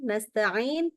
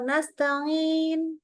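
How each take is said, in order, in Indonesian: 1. Bunyi ain keluar lewat mulut. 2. Bunyi ain keluar lewat hidung.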